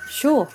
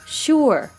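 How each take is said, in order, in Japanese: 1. 最後のRは舌を緩めて、発音せずに落とします。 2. 最後のRは舌を巻いて発音します。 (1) "舌を緩める" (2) "舌を巻く"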